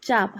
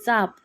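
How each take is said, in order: First: The first consonant is palatal, with a y-glide. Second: The first consonant is dental, without a y-glide. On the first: "य लावल्यास तालव्य वर्ण होईल" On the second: "चाप म्हटल्यास दंत तालव्य"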